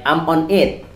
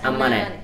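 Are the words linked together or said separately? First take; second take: separate; linked. First: The words are said slowly and separately. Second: The words are said fast and run together.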